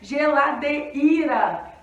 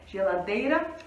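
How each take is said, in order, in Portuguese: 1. O E e o I são vogais plenas e separadas. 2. O I é fraco e desliza depois do E. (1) "Se o E e o I fossem fortes, fossem vogais" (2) "O I, ele perde o tom"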